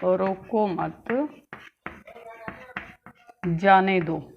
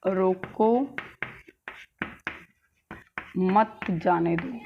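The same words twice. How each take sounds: First: Slow रोको मत, long stop, then जाने दो; long break between मत and जाने; pause after मत. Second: Long break between रोको and मत; रोको set apart, then मत जाने दो slowly as one phrase; pause after रोको. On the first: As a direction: keep रोको मत together, then set जाने दो apart. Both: Shown as a demonstration. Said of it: "विराम चिन्ह की वजह से".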